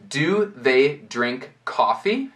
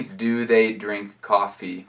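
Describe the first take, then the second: First: Slow "Do they drink coffee" rising on coffee; question intonation. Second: Slow "Do they drink coffee" kept level, no rise on coffee; no question intonation. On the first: Teacher modelling an English question, rising intonation. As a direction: ask "Do they drink coffee" word by word, lifting coffee at the end. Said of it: "você nem precisa dessa entonação". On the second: Teacher showing it is still understood, question without intonation. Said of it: "falado assim". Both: Shown as a demonstration.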